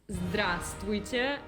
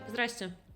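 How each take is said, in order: First: Nearly every letter of the word is pronounced. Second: The middle part of the word is left out. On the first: "se vogliamo proprio pronunciare quasi tutte le lettere" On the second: "la maggior parte delle persone dice Zdraste. Quindi la parte centrale non esiste"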